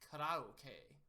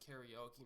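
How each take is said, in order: First: The word is said with Japanese pronunciation. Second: The word is said with English pronunciation. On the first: "in Japan they pronounce it" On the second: "if you pronounce it karaoke, nobody will kill you"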